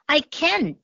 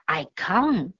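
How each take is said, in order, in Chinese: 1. 这是用美式口音说的。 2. 这是用英式口音说的。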